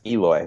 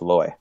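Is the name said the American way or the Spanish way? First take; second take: American; Spanish. First: The name is said with an American English pronunciation. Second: The name is said with a Spanish pronunciation. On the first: This is how people in America usually say it. The speaker calls it wrong. "everybody just says Eloy. That's not how you say it" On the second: This is how the name is really pronounced. The speaker calls it right. "It's Eloy"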